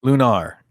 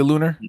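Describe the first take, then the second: First: "Lunar" ending like "car"; "Lunar" as loo-NAR. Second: "Lunar" with a weak "er" ending; "Lunar" as LOO-ner. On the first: Host echoes the co-host's correction, "Lunar" said loo-NAR. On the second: Host asks about a possible slip, "Lunar" said LOO-ner. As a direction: rhyme "Lunar" with "sooner". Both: Shown as a demonstration. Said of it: "did I say Lunar?".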